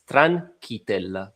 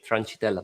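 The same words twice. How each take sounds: First: The name is said in its native pronunciation. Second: The name is said with an American pronunciation. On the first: This is how the name's owner says it. The speaker calls it right. "for my surname, it's Tranchitella" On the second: This is how other people mispronounce the name. The speaker calls it wrong. "especially from the U S, they're saying Tranchitella"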